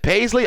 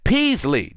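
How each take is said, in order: First: The first vowel sounds like 'pay'. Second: The first vowel sounds like 'pea'. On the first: The speaker calls it wrong. "you've been pronouncing my last name wrong" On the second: The speaker calls it right. "Pronounce it Peasley"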